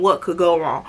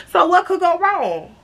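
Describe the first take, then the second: First: Low, dismissive echo of the question; scornful echo. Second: High, breezy mock innocence; naive rhetorical question. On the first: Acted. Storyteller scolds the naive question, scornfully echoing it. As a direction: throw the question back in a dropped pitch. What you mean. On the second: Storyteller sums up the fun night, mock-innocent. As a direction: ask it lightly in a raised voice.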